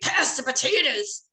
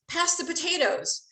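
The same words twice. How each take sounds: First: It is said in a harsh, rude tone. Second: It is said in a calm, polite tone. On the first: A hostile demand that provokes anger. "you might throw the potatoes at my head" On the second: A friendly request to hand over the dish. "Most likely you're going to pass the potatoes to me"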